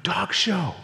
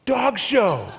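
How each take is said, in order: First: Said in the usual way. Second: Louder, higher "Dog show."; second "Dog show." sold harder; emphatic repeat. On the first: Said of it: "I went". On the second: Acted. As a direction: announce "Dog show." with a punch.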